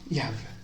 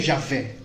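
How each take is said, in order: First: The name begins with a 'y' sound. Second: The name begins with a 'zh' sound. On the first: This is how the original Hebrew name sounds. "que se pronuncia Yahvé" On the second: This is how Portuguese speakers usually say it. "a gente falaria Javé, como a gente costuma falar"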